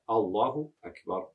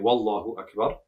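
First: The phrase begins with a glottal stop. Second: The phrase begins with a w sound. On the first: The speaker calls it right. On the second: The speaker calls it wrong.

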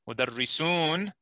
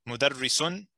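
First: The vowel before the final n is long. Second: The vowel before the final n is short. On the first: It means several teachers. "is teachers" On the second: It means one teacher. "is a tanween. It means one teacher"

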